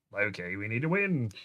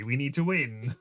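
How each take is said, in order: First: A light Australian accent on Loki, we need to win. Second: Said in the usual way. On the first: Shown as a demonstration. Co-host redoing Thor's line to Loki in a light Australian accent. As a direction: say it like an Aussie brother, lightly.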